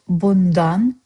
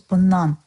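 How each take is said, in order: First: Every sound is pronounced fully, as written. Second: The sounds blend together smoothly and flow. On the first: This is the official written form. "You wrote bundan" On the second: This is how it is said in everyday speech. "the best way it flows"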